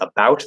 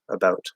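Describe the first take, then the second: First: The vowel is a full American 'ow' sound. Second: The vowel sits halfway between 'ow' and 'oo'. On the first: "instead of saying" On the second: "It's sort of like halfway in between"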